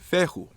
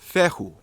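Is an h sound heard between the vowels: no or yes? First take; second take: yes; yes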